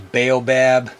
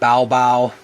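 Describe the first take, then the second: First: It is pronounced the American English way. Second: It is pronounced the Malagasy way. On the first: "over in the U S, you know, we pronounce these as baobab" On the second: "In Malagasy, they might call it baobab"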